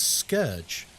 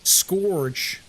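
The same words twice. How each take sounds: First: "scourge" corrected to SKURJ; correct pronunciation. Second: "Scourge" mocked as SKORJ; "Scourge" with a long wrong OR vowel; mispronunciation. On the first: Shown as a demonstration. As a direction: say "scourge" to rhyme with urge. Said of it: "Like, no, it's". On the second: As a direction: say "Scourge" to rhyme with gorge. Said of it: "Why are you saying it like that?".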